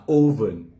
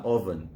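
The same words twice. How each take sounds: First: "oven" said as OH-ven; mocked mispronunciation. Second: "oven" opening with a short, open vowel; correct pronunciation. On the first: Recalling the laughed-at version, oven as OH-ven. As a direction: say "oven" with a long oh to start. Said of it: "If you go pronounce an oven". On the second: Giving another tricky word, oven with a short opening vowel. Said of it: "I be pronounce an oven". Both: Shown as a demonstration.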